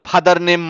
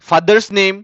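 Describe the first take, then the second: First: There is no s sound after father. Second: An s sound follows father. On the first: The speaker calls it wrong. "এগুলো কিন্তু ভুল হবে" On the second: The speaker calls it right. "এভাবে সঠিকভাবে শেখাবেন"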